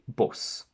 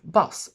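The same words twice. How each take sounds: First: The vowel is close to an 'o' sound. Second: The vowel is an open 'ah' sound. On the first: This is how it is said in northern England. "they would say bus" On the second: This is the usual pronunciation. "instead of saying bus"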